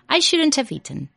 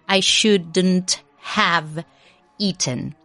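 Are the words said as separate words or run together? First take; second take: run together; separate. First: The words are run together like one word. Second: Each word is said separately and clearly. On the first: The speaker calls it right. "se dice como si fuese una sola palabra" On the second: The speaker calls it wrong. "you wouldn't say"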